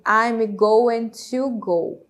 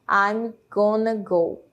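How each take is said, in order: First: Going to is said as two full words. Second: Going to is reduced and blended into gonna. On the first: The speaker calls it wrong. "Não fica ali eu" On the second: The speaker calls it right. "e sim"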